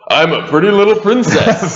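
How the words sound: It is said in a dramatic movie-trailer voice.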